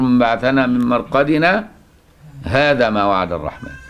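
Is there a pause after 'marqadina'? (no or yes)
yes. There is a pause after marqadina before the rest. The second half is a reply from someone else. The speaker calls it right. "لا، انت تقول"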